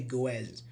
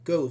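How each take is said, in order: First: The ending has an extra iz syllable. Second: The ending is a plain z sound. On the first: The speaker calls it wrong. "We don't say" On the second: The speaker calls it right. "we say"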